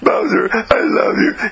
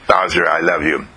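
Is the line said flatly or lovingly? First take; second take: lovingly; flatly. First: It is said warmly, with loving feeling. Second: It is said flatly, without warmth. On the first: The words are said with real affection. The speaker calls it right. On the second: The words are said without real feeling. The speaker calls it wrong.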